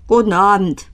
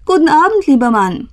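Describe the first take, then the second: First: Sullen, grudging reply, falling away; grumpy grumble. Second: High, lifted friendly hello; bright-pitched, amiable storybook greeting. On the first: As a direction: grumble a reluctant hello without looking up. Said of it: "brummte mürrisch". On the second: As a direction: greet a stranger kindly, pitched well up. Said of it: "sagte freundlich". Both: A narrator's reading.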